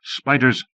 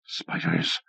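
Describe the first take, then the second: First: Cried out. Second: Breathless unvoiced whisper of dread; whispered horror. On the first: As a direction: blurt it out in disgust. Horror at spiders, cried out. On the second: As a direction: hiss it in terror. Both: A narrator's reading.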